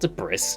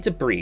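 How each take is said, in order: First: The word ends with an s sound. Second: The word ends without an s sound. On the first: The speaker calls it wrong. "not debris" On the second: The speaker calls it right. "There's no S. You say debris"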